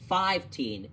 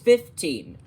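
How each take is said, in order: First: The first syllable sounds like 'five'. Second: The first syllable sounds like 'fif'. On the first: The speaker calls it wrong. "fifteen is not pronounced five-teen" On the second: The speaker calls it right. "it's fifteen"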